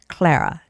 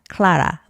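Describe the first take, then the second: First: It is said with a standard English pronunciation. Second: It is said with a Korean-style pronunciation. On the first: The speaker calls it right. "but it's actually Clara" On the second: The speaker calls it wrong. "I think Koreans would say Clara"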